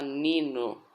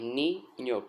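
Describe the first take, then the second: First: The middle consonant is a plain n sound. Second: The middle consonant is an ny sound. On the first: The speaker calls it wrong. "Não se fala nino" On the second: The speaker calls it right. "é ninho por causa da letra N"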